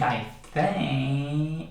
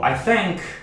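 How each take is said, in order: First: The airflow flows on without a hard stop. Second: The airflow stops sharply on the final k. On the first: The speaker calls it right. "go from the vowel sound to the vowel sound" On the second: The speaker calls it wrong. "we interrupt the airflow"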